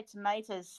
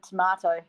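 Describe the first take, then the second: First: "tomatoes" with a long AY in the middle; imitated American pronunciation. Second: "tomato" with a broad AH in the middle; British pronunciation. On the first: Teasing streamer about their word, "tomatoes" said to-MAY-toes. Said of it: "I love how you say tomatoes". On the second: Shown as a demonstration. Contrasting own word with streamer's, "tomato" said to-MAH-to. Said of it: "instead of tomato".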